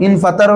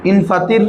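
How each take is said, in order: First: ইনফাতার said with an open a in the last syllable, fa-TAR; vowel a before r. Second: ইনফাতির said slowly with a clear i in the last syllable, fa-TIR; vowel i before r. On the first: Teacher to students, showing the past form: ইনফাতার with an open a. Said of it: "ইনফাতার হইলে মাজি". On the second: Teacher to students, showing the command form: ইনফাতির with a clear i. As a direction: stretch out ইনফাতির, ending in -tir. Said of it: "ইনফাতির হইলে আমর". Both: Shown as a demonstration.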